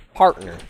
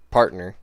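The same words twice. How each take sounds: First: Partner said louder in a cowboy drawl. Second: Said in the usual way. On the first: Shown as a demonstration. Streamer contrasting the cowboy meaning of partner, loud twang. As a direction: punch out partner like a western sidekick. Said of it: "then you got partner". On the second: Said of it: "as in what I was saying".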